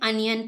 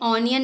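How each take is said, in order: First: The first vowel is a short 'uh' sound. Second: The first vowel is an open 'aw' sound. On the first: The speaker calls it right. "इसे अनियन पढ़ते हैं" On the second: The speaker calls it wrong. "इसे ऑनियन नहीं पढ़ना है"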